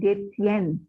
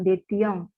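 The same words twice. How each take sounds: First: The ending is pronounced without a nasal vowel. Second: The ending is pronounced with a nasal vowel. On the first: The speaker calls it right. "konjugasi untuk ketiga jamak itu tidak disengokkan" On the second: The speaker calls it wrong. "bukan détient"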